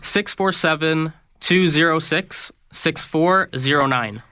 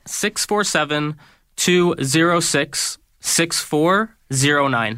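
First: The number is said at normal, quicker speed. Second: The number is said slowly.

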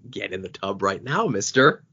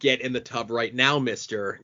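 First: The voice is deep, loud and booming. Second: The voice is lighter with less force. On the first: The order sounds more threatening. "a much louder, deeper, booming, carrying voice" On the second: The order sounds less threatening. "does not have the same oomph to it"

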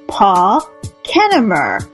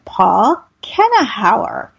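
First: The surname has no extra h sound. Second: The surname has an extra h sound. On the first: The speaker calls it right. "There, I got it" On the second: The speaker calls it wrong. "I said that wrong. ... I put in too many H's"

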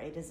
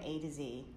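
First: Z is said the British way, as zed. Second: Z is said the American way, as zee.

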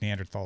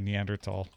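First: The word is said with an English-like pronunciation. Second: The word is said with a German-like pronunciation. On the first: "I think Neanderthal is fine, too" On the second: "You should say Neanderthal. ... It's basically trying to Germanize it"

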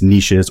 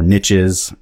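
First: The word has a non-Southern pronunciation. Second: The word has a Southern pronunciation.

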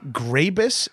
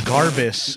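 First: The r sound comes right after the g. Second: The r sound comes right after the first a. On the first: "people say it wrong all the time" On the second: "people say it wrong all the time"

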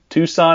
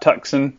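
First: The c is silent, no k sound. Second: The c is pronounced as a k sound. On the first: The speaker calls it right. "The C is silent" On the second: The speaker calls it wrong. "not Tucson"

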